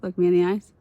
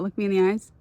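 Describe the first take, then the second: First: Louder insistent demand. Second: Insistent demand. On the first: Telling her viewers to look at her, louder and firmer. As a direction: repeat it harder and louder, dead serious. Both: Real, not acted. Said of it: "I want you all to know that".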